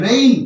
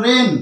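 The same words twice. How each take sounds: First: রেইন with the vowel gliding from e into i; correct pronunciation. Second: রেন with no "i" glide before the n; one plain vowel in রেন, like "ren"; common mispronunciation. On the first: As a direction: say রেইন as "re-in", with an "ei" glide. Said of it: "এর সঠিক উচ্চারণ কি হবে". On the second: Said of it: "ভুল উচ্চারণ". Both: Shown as a demonstration.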